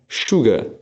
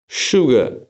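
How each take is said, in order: No difference in how they are said.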